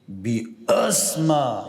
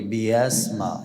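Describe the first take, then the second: First: The consonant is articulated with excessive force. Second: The consonant is articulated too loosely and weakly. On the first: "نه آنقدر شدت بکنم بگوییم که" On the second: "نه آنقدر سهلنگاری بکنم که بگوییم که"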